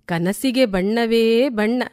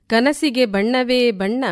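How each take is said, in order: Both takes have the same delivery.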